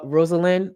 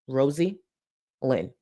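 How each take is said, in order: First: The middle vowel is short and reduced. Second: The middle vowel is a full 'ee' sound. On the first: This is the accepted way to say the name. "I know it's pronounced uh, Rosalind" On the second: This is a deliberate joke version of the name. "I'm gonna pr- pronounce it Rosie Lynn"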